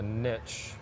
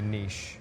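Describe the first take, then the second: First: It is said with a Southern US pronunciation. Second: It is said with a neutral, non-Southern pronunciation. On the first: The speaker is talking with people from home. "if I'm in Tennessee, I call it a niche" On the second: The speaker expects to be judged by listeners. "if I'm outside of the United States, I'll say niche"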